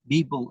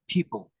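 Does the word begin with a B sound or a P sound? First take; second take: B sound; P sound. First: The word begins with a B sound. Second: The word begins with a P sound. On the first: The speaker calls it wrong. "they used to say people" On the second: The speaker calls it right. "instead of people"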